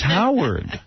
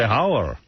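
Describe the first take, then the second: First: The name ends with a clear D sound. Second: The name is said in a Spanish accent without D.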